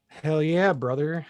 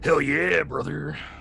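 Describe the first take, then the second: First: It is said plainly, without extra energy. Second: It is said with much more force.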